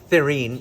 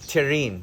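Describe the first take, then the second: First: The name starts with a th sound. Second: The name starts with a plain t sound. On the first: This is how the name is meant to be said. "you will pronounce it Thirin" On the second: This is how the script literally spells it. "it's actually spelled Tirin"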